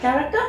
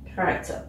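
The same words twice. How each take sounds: First: The voice rises at the end. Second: The voice falls at the end.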